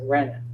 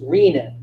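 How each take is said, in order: First: The first vowel differs from the one in renal. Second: The first vowel sounds like in renal. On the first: This is how most people say it. The speaker calls it wrong. "everybody pronounces it renin" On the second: The word follows its root meaning kidney. The speaker calls it right. "really should be pronounced renin"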